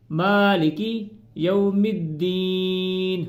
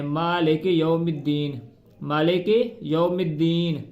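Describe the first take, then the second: First: Sung, slow drawn-out Maliki with clear short i; sung, recite Maliki slowly and correctly; sung, correct slow recitation. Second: मालिक with a long e, like Malek; wrong pronunciation. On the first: Sung, teacher showing the correct reading after the mistake. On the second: Teacher demonstrating the common mistake. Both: Shown as a demonstration. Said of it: "इस तरह नहीं पढ़ना इसको".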